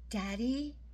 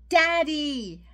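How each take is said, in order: First: It is said very quietly. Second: It is said a little louder.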